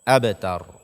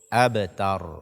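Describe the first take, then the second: Both takes have the same delivery.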